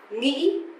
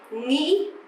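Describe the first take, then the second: The two takes are said the same way.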